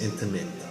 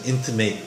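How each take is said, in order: First: The last syllable is short, like 'mit'. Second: The last syllable has a long A, like 'mate'. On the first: The speaker calls it right. "but it's intimate" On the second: The speaker calls it wrong. "It sounded like you said intimate"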